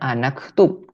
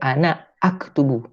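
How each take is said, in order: First: The words are run together, hamza dropped. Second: The two words are kept separate, hamza pronounced. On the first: The speaker calls it wrong. "maka cara bacanya bukan anaktub" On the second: The speaker calls it right. "tapi ana aktubu"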